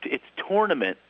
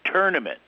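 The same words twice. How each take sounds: First: "tournament" with a round "tor" in the first syllable; Philly tournament. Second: "tournament" with "ter" in the first syllable; tournament said "ter-nament". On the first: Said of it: "I say". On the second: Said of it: "they say". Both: Retold or imitated.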